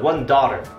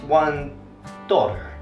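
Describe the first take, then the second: First: It is spoken with an American accent. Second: It is spoken with a British accent. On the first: "in American English" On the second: "In UK English, one dollar or something like that"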